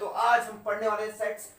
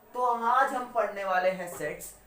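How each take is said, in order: First: The sentence is spoken very fast. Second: The sentence is spoken slowly. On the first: The speaker calls it wrong. "बहुत fast fast बोलता हूँ मैं" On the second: The speaker calls it right. "मैं धीरे बोल देता हूँ"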